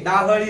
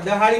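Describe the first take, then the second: First: The first vowel is long, the second short. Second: The first vowel is short, the second long. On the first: The speaker calls it right. "डाहळी म्हणायचं" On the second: The speaker calls it wrong. "डहाळी म्हणायचं नाही"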